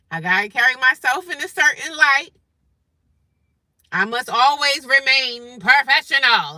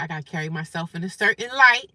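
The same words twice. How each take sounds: First: Mock professional. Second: Said in the usual way. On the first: Reminding self to stay professional at work, mock-proper. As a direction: declare it with exaggerated, prim projection.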